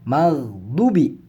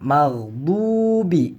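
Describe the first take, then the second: First: The vowel after the d is short. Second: The vowel after the d is long. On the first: The speaker calls it wrong. "bukan maghdubi" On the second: The speaker calls it right. "Maka ini dibaca panjang"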